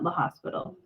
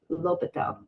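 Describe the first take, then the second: First: It sounds like the word hospital, with an s. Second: It is said without any s sound. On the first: The speaker calls it wrong. "It's not La Hospital" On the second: The speaker calls it right.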